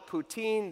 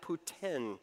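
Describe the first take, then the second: First: The word does not sound like Putin. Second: The word sounds like the name Putin. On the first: This is how it is said outside Quebec. "They don't call it poutine" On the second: This is how it is said in Quebec. "they call it poutine ... poutine that they called Putin"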